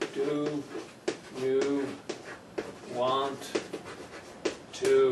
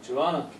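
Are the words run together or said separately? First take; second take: separately; run together. First: Each word is said fully and separately. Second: The words are reduced and run together.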